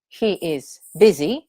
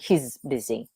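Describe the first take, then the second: First: He and is are said as two full words. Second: He and is are joined into one contracted word. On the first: The speaker calls it right. "You say this" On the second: The speaker calls it wrong. "rather than he's busy"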